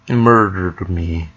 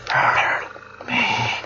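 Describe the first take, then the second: First: It is said in a normal voice. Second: It is said in a whisper.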